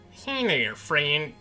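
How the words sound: It is said in a different character voice.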